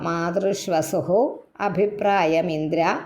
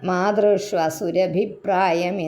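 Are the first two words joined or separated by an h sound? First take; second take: separated; joined. First: The first word ends with an h sound. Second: The first word runs straight into the next. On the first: The speaker calls it right. "മാതൃഷ്വസു വിസർഗവ" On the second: The speaker calls it wrong. "സുരഭി അല്ല കേട്ടോ"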